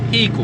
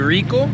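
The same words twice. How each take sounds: First: The word begins without an R sound. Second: The word begins with a clear R sound. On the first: "Brazilians don't pronounce the letter R. ... but it's Rico" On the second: "It's supposed to be Rico"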